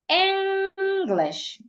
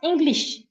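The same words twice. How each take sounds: First: The first syllable is louder, longer and clearer. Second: Both syllables are said evenly, with no stress. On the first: The speaker calls it right. "The right pronunciation is English. The first part has to be said louder, longer, and clearer" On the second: The speaker calls it wrong. "not English. English is flat"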